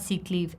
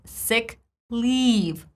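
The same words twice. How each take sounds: First: Both words have the same vowel sound. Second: The two words have different vowel sounds. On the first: The speaker calls it wrong. "It's not" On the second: The speaker calls it right. "two different e sounds"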